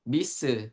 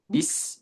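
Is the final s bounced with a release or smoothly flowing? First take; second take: bounced; flowing. First: The final s is bounced with an extra release. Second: The final s flows smoothly without bouncing. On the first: The speaker calls it wrong. "jangan dipantulkan" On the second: The speaker calls it right. "tapi dialirkan"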